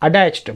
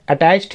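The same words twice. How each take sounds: First: अटैच्ड with the t softened toward d; American accent. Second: अटैच्ड with a crisp, clear t sound; British-English अटैच्ड with a sharp t; British accent. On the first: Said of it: "American accent में इसे". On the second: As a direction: say अटैच्ड the British way, hard t kept. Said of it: "British accent में अटैच्ड ही पढ़ेंगे". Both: Shown as a demonstration.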